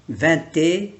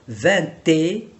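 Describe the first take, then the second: The two takes are said the same way.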